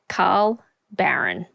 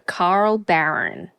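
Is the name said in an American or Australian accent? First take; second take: Australian; American. First: The name is said in an Australian accent. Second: The name is said in an American accent.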